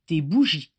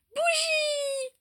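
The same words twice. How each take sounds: First: Said in the usual way. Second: Put-on very high, drawn-out little girl squeal; piping child's exclamation; toddler's cry. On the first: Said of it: "Oui, mon ange". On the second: A narrator's reading. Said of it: "s'écria-t-elle".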